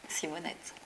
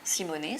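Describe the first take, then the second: First: The name ends with a sounded t. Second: The name ends on an open vowel. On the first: This is how locals say the name. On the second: This is the original family name.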